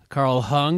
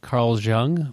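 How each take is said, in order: First: The surname begins with an H sound. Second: The surname begins with a J sound.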